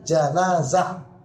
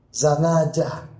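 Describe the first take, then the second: First: The word begins with a j sound. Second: The word begins with a z sound. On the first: The speaker calls it right. "jim dulu baru zai" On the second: The speaker calls it wrong. "Jangan terbalik"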